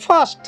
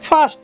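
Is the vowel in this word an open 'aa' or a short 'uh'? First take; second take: aa; aa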